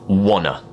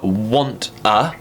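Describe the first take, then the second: First: The words merge into one word without t. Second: Both words are pronounced fully with the t. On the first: "becomes wanna" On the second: "want a becomes"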